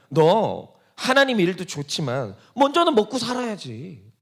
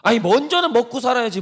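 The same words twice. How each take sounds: First: Slow, reasonable-sounding tempter's coax; Satan coaxing. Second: 먼저는 pushed harder, a bit higher and louder; insisting tempter. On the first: Satan advising the believer to eat first, slow coaxing. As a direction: lay it out slowly like friendly advice. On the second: Satan insisting on 먼저는 to the believer, pushier. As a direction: press the point 먼저는 with insistence. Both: Retold or imitated. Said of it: "그러면서 하는 말이 뭡니까?".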